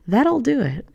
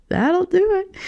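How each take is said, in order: First: Said in the usual way. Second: High, slow, laughing; high laughing repeat. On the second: Shown as a demonstration.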